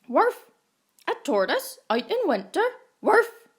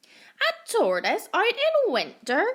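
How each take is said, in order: First: Loud, higher, fast barking voice; dog barking its disbelief. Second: Much higher, loud duck voice; squawky duck asking in disbelief; quacking duck. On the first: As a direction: bark it out like an excited dog. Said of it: "barked the dog". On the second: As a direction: sound like a mocking duck. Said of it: "quacked the duck". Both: A narrator's reading.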